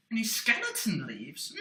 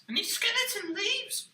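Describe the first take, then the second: First: Said in the usual way. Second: High, eager little puppet voice. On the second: Acted. Puppet quizzing the host about leaves, high puppet voice. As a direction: ask it like a wide-eyed puppet.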